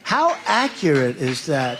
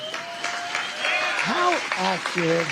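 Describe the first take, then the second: First: Said in the usual way. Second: High, very slow "How accurate" with a stretched "how"; drawn-out how accurate. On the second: Shown as a demonstration.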